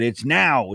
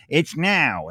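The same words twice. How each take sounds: First: A light take on the coach's clipped way of talking; just hint at how Woody talks; lightly voiced Woody, barely off his own voice; Woody impression. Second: A faint imitation of the coach's blunt delivery, right after a laugh; a mild Woody imitation, almost his own voice; Woody impression. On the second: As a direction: give a hint of Woody again, amused. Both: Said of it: "That's how he talks".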